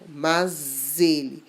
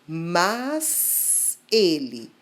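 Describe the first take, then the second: First: Said quickly without a pause; the s buzzes. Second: Said slowly with a pause; the s hisses. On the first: "rapidamente, sem pausa ... está como um zumbido de inseto" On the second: "com grande pausa, bem devagar ... está como um assobio"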